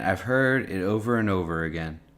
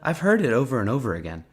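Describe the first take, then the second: First: It is said in the speaker's ordinary voice. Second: It is said in an imitated accent.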